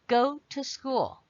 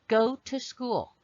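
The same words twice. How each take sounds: The two takes are said the same way.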